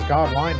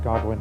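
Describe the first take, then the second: First: The last syllable sounds like 'wine'. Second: The last syllable sounds like 'win'. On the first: The name's owner said it this way. "he pronounced it as Godwine" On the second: Some other people say the name this way. "it's pronounced Godwin to some circles"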